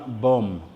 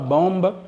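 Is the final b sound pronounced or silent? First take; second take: silent; pronounced. First: No b sound is heard at the end. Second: A b sound is heard at the end. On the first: The speaker calls it right. "mais dites simplement bomb" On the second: The speaker calls it wrong. "ne prononcez pas bombe"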